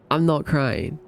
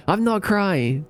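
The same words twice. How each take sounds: First: Said in the usual way. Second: Higher, protesting I'm not crying; mock denial. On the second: To chat, pretending she isn't crying. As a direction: insist you're fine with a pout.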